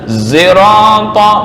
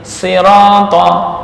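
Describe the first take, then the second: First: The first sound blends s with z. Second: The word begins with a plain s sound. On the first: "Zirata mencampurkan ini ya" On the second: "dengan membaca sin"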